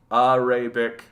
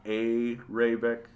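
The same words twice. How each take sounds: First: "Arabic" starting with AH, as in AH-ray-bik; first vowel AH. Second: "Arabic" starting with AY, as in AY-ray-bik; drawn-out "Arabic" with a long AY at the front; first vowel AY. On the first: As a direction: say "Arabic" with an open AH at the front. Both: Shown as a demonstration. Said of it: "not Arabic".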